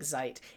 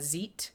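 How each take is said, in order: First: The vowel rhymes with kite. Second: The vowel does not rhyme with kite. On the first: "he's saying it's pronounced like kite" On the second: "so I'm saying uh"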